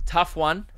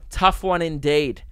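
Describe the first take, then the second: First: Said in the usual way. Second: "Tough one indeed" drawn out slowly, each word weighed; a slow, mock-solemn repeat; slow, mock-grave. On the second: Shown as a demonstration. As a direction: ponder it slowly like a wise judge.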